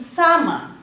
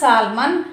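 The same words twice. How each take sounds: First: The L is silent in the word. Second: The L is pronounced in the word. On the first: The speaker calls it right. "L should not pronounce here" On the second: The speaker calls it wrong. "No, it's not salmon"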